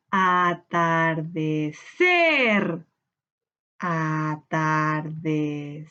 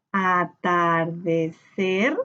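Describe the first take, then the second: First: Low, very slow "atardecer" with CER held long; stressed last syllable. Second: "atardecer" very slow in even syllables, a-tar-de-cer, rising at the end. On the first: Teacher hunting the sílaba tónica, "atardecer" with CER drawn out. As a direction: draw out the final CER of "atardecer". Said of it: "Busquemos la sílaba tónica". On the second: Teacher splitting the word with pupils, "atardecer" slowly syllable by syllable. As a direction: sound out "atardecer" one syllable at a time. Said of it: "Tenemos primero que separar por sílaba". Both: Shown as a demonstration.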